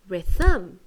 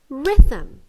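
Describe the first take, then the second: First: The stress is on the second syllable. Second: The stress is on the first syllable. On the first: The speaker calls it wrong. "The second one, rhythm, is not correct" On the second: The speaker calls it right. "The stress is on the R. The first one is correct"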